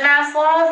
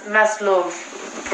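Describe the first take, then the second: First: Maslov with an open "aw" in the second syllable; Maslov, ending in an open "lawv"; questioned pronunciation. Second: Maslov with a closer, rounded second vowel; Maslov, ending like "love" with rounded lips; alternative pronunciation. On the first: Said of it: "is it Maslov or is it". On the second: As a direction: say Maslov as "MESS-luhv". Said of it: "or something like that". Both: Shown as a demonstration.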